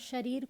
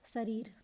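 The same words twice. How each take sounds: First: The word begins with an sh sound. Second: The word begins with a plain s sound. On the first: The speaker calls it right. "श के स्थान पर स का प्रयोग" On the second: The speaker calls it wrong. "आप लोग बोलते हैं शरीर को शरीर"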